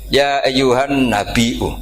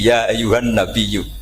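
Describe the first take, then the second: First: The last word has a glottal stop before the ending. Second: The last word has a doubled y, no glottal stop. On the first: "ini mahmusulam" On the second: "dia anti hamzah juga"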